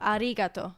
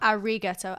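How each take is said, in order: First: The r is made with a rolled tongue. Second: The r is a plain English r sound. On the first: The speaker calls it right. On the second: The speaker calls it wrong.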